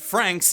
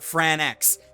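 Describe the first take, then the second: First: It is said as one syllable, rhyming with banks. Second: It is said as two syllables, ending in ex. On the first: The speaker calls it right. "it's pronounced Franks" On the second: The speaker calls it wrong. "not Fran-X"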